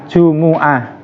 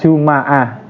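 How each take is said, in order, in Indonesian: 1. Huruf m diikuti vokal u. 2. Huruf m diikuti vokal a. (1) "Jimnya dibaca dhammah, begitu juga mim" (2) "di fathah"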